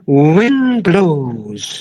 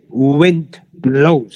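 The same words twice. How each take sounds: First: It is said in a vivid, expressive way. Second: It is said in a flat, plain way. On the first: The speaker calls it right. "You draw the picture" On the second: The speaker calls it wrong. "you don't say wind blows"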